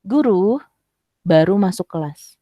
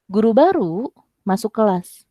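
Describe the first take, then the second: First: "Guru" lifted on a rise, a clear pause, then "baru masuk kelas" falling as one phrase; intonation demo. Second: "Guru baru" said together as one unit, "baru" prominent with a fall, then "masuk kelas"; group "Guru baru" so "baru" describes the teacher; intonation demo. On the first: Teacher showing the class that "baru" means just now, pause after "Guru". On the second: Teacher showing the class that "Guru baru" means new teacher, grouping "Guru baru". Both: Shown as a demonstration. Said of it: "kakak bisa pakai intonasi".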